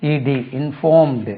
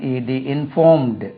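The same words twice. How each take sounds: The two takes are said the same way.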